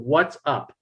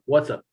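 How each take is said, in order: First: Each word is said clearly and separately. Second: The words are run closely together. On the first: The speaker calls it right. "try and say each word separately" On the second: The speaker calls it wrong. "otherwise it sounds like"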